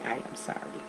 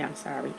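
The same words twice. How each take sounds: First: "I am sorry" said softly, every word spelled out; soft sincere apology. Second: Said in the usual way. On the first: Shown as a demonstration. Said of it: "is to say". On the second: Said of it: "The simplest way to say".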